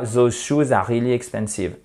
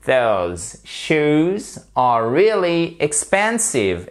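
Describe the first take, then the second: First: Quick French-accented English, "those" as "zo"; French accent with even, unstressed syllables. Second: "those shoes are really expensive" very slow, voiced th, stressed PEN; correct English pronunciation. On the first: Teacher showing learners the mistake, in a French accent. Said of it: "je vous donne la prononciation en français". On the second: Teacher modelling "those shoes are really expensive", slow and stretched. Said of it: "je vous donne la prononciation". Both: Shown as a demonstration.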